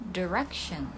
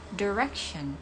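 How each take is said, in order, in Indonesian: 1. Diucapkan dengan aksen Amerika. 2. Diucapkan dengan aksen Amerika.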